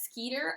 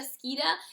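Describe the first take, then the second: First: The name ends in a clear 'er' sound. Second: The name ends in a soft 'uh' sound. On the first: "her name is Rita Skeeter" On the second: "I call her Rita Skeeta"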